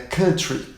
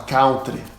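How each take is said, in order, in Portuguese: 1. Usa a pronúncia padrão do inglês. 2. Usa a pronúncia comum de aprendiz. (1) "É country" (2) "todo mundo fala errado"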